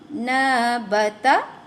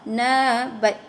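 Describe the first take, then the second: First: The word ends on a short final vowel. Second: The word stops on its final consonant. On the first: The reading continues without stopping. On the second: The reader stops on this word.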